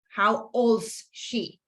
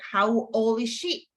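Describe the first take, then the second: First: The word is is contracted to 's. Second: The word is is said in full. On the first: The speaker calls it wrong. "pero no puedo poner en este caso" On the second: The speaker calls it right. "sí puedo hacer"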